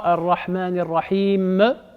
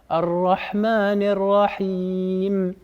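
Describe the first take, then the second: First: An extra vowel follows the final m. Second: The final m is clear and slightly nasal. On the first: The speaker calls it wrong. "Le E à la fin, ça n'existe pas en arabe" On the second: The speaker calls it right. "le mime, il faut qu'il soit clair"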